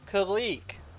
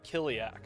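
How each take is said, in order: First: The name is said as Kalik. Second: The name is said as Kiliak. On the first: The speaker calls it right. "oh, Kalik. That makes more sense" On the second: The speaker calls it wrong. "I just called it Kiliak for so long"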